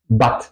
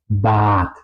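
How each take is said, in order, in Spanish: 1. La vocal se pronuncia corta. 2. La vocal se pronuncia larga. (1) "se tendría que pronunciar corta" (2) "La pronunciación correcta es Bad"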